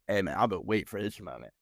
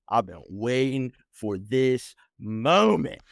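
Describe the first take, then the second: First: Low, soft and savoring; hushed gloating; quiet relish. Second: Drawn out, savoring every word slowly; slow, triumphant repeat; slow gloating. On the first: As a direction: murmur it like a long-awaited revenge. Relishing confrontation. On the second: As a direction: stretch it out like the moment finally came. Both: Retold or imitated.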